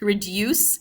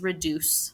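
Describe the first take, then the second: First: It is said with a British accent. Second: It is said with a North American accent. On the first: "with a British person" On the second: "North American Native English is reduce"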